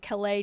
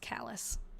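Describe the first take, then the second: First: The name is said with a French-style pronunciation. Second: The name is said the way local residents say it. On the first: The speaker assumed the name was French. The speaker calls it wrong. "I was pronouncing it Calais too, because I thought, oh, it's French" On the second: This is how people who live there say it. The speaker calls it right. "I've been told by people who actually live there that it's Callous"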